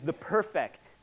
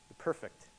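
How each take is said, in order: First: Perfect stressed on its second syllable, per-FECT; misplaced stress. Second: Perfect stressed on its first syllable, PER-fect, softly; corrected stress. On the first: Preacher naming the ultimate, stressing per-FECT. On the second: Preacher getting his emphasis right, softly stressing PER-fect. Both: Real, not acted. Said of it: "We have my em-, emphasis right".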